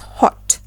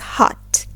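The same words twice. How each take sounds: First: It is said with a rounder British O. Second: It is said with an open American O. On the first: "in British English, it is pronounced as" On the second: "in American English, it is pronounced as"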